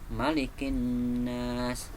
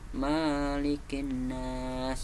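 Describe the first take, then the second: First: The first vowel in Malikin is short and quick. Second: The first vowel in Malikin is held long. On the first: It means king of mankind. The speaker calls it right. "langsung cepat, tanpa ada tanda panjang di bacaan ma" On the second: It means owner of mankind. The speaker calls it wrong. "itu artinya salah"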